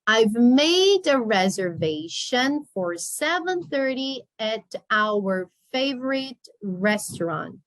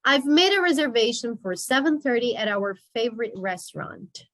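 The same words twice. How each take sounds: First: Slowed down, words drawn out; slow model reading. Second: Said in the usual way. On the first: Shown as a demonstration. Teacher repeats the sentence slowly for the class. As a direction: read it slowly for the learners.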